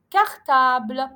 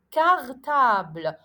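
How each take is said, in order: First: Slow, syllable by syllable cartable; careful reading. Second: Cartable repeated slowly with a hard K; careful reading. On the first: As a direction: read cartable slowly with a hard K. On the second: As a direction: say cartable again, clear K sound. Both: Shown as a demonstration. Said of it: "Je vous donne des exemples".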